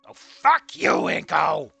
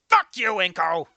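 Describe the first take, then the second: First: It sounds playful, like teasing a silly goof. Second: It sounds angry and sharp.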